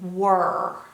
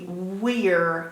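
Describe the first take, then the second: First: The vowel sounds like 'er', rhyming with her. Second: The vowel sounds like 'ear', rhyming with here. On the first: This is the real pronunciation. The speaker calls it right. "but it's not. It's were" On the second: This is how the spelling would suggest it. The speaker calls it wrong. "It would be we're if it was spelled phonetically"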